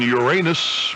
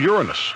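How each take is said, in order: First: The word contains a sound like 'anus'. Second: The word avoids a sound like 'anus'. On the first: This is the older form broadcasters avoided. "did not want the word ass, even if it was part of another word" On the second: This is the form adopted for broadcasting.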